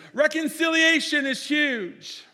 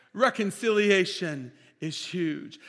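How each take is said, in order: First: High, loud, slow proclamation; booming pulpit emphasis; proclaimed. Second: Said in the usual way. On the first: Acted. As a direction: ring out the big word. Pastor proclaims key point.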